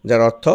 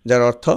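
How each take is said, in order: No difference in how they are said.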